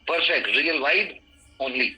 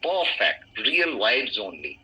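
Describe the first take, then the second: First: The phrase is broken up with pauses between words. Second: The phrase is said smoothly without any pauses. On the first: The speaker calls it wrong. "और रुक भी जाते हो" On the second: The speaker calls it right. "आपको एक साथ पढ़ने पड़ेगा"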